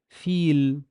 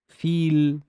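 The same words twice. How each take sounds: The two takes are said the same way.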